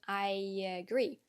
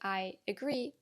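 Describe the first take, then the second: First: A y sound links the two words together. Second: The words are said with no linking y sound. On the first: "add a y sound between the two words to connect them better" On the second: "not technically incorrect"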